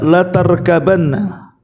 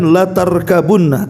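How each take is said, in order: First: The vowel after the b is a. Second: The vowel after the b is u.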